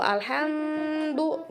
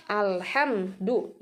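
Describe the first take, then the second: First: "alhamdu" with a long hummed m, higher; over-held mim. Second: "Alhamdu" broken after ham, gap before du; cut-off mim. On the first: Teacher shows forbidden holding, "alhamdu" with prolonged m. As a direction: hold the m of "alhamdu" far too long. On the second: Teacher shows the forbidden cut, "Alhamdu" broken at m. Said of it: "ini diputuskan". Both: Shown as a demonstration.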